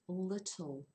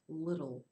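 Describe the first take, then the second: First: It is said with a British pronunciation of t. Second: It is said with an American pronunciation of t.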